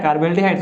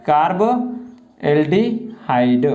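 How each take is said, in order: First: Said in the usual way. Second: Very slow कार्बोल्डिहाइड, broken into separate parts; syllable-by-syllable dictation. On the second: Shown as a demonstration. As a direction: stretch out each piece of कार्बोल्डिहाइड. Teacher dictates the term in pieces.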